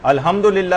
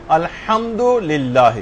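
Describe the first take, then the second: First: Casual الحمدللہ, the ح softened to a plain h; wrong pronunciation. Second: Very slow الحمدللہ, the ح pressed from the throat; drawn-out الحمدللہ with a deep throaty ح; correct pronunciation. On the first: Teacher showing students the wrong الحمدللہ, said casually. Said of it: "الحمدللہ نہیں". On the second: Teacher modelling the right الحمدللہ for students, very slowly. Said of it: "الحمدللہ نہیں، فرق ہے". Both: Shown as a demonstration.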